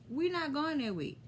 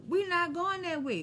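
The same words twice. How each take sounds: First: Said in the usual way. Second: Quoted refusal. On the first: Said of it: "everybody agreed with me". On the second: Retold or imitated. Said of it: "we was like".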